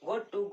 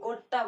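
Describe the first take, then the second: First: Both words are said fully and separately. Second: The words blend into one reduced word.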